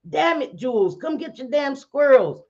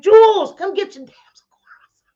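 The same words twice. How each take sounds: First: High-pitched scolding, short of screaming; retold exasperated yell. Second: High scream breaking off into whispery words; retold scream. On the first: Woman scolding Jules over squirrels, mock exasperated yell. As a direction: replay the street yell, higher than normal talk. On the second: Woman yelling in the middle of the street, retold scream. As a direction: blast the name, then lose the voice. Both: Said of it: "I literally screamed that out".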